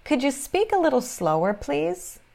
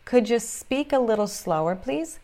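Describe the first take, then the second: No difference in how they are said.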